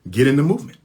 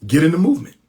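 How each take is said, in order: First: Said in the usual way. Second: Louder, higher repeat of the call; raised rallying cry. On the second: Real, not acted. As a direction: push it out to the crowd. Rallying listeners to join movement.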